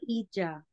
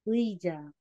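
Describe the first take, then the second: First: The word begins with a plain 'ee' sound. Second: The word begins with a 'wee' glide sound. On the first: The speaker calls it wrong. "Hindi siya Ija" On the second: The speaker calls it right. "iba po yung bigkas nila dyan"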